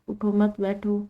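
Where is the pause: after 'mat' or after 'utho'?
after mat. There is a pause right after 'mat'. The command is to sit, not get up. The speaker calls it wrong. "उठने की नफी की जा रही है और बैठने का सबात किया जा रहा है"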